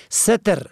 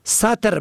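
First: ستر as "setr"; short "e" after the s in ستر; first vowel "e". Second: سطر as "satr"; fatha on first letter. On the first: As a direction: say ستر as SE-ter. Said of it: "به فتح اول پوشش". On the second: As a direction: open "a" after the s in سطر. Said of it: "به فتح اول". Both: Shown as a demonstration.

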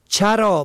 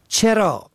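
First: چرا as "charā"; fatha on first letter. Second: چرا as "cherā"; short "e" after the ch in چرا; kasra on first letter. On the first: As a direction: open "a" after the ch in چرا. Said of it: "به فتح اول". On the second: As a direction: say چرا as che-rā. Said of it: "به کسر اول". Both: Shown as a demonstration.

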